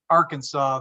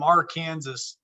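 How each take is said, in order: First: Said in the usual way. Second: "Arkansas" said slowly as ar-KANSAS; spelling pronunciation. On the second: Shown as a demonstration. Says state name two ways.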